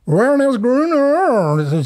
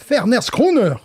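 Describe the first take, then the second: First: It starts with an English-style W sound. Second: It starts with a V sound, German-accented. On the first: The speaker calls it wrong. "comme disait le caissier" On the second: The speaker calls it right. "moi je parle avec un accent d'Allemagne de l'Est"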